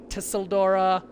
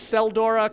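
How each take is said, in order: First: The name begins with a T sound. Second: The name begins with an S sound.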